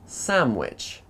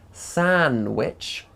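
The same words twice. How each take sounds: First: An m sound comes before the w. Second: An n sound comes before the w. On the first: "n changes to m before w" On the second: "we have an n followed by a w"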